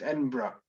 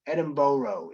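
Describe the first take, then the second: First: Edinburgh said as ED-in-bruh, clipped final syllable; correct pronunciation. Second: Edinburgh said as ED-in-burrow, a full round -burrow ending; wrong pronunciation. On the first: Correcting viewers to the local Edinburgh. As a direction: swallow the ending of Edinburgh to ED-in-bruh. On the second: Showing viewers the wrong way to say Edinburgh. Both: Shown as a demonstration. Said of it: "the one thing it's not is Edinburgh".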